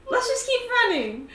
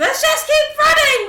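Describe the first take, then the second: First: High, loud urging. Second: Very high full yell; yelled urging. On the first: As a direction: push the runner onward. Urging a party member upstairs. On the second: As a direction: yell it over the other's protest. Repeats the order, escalating. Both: Acted.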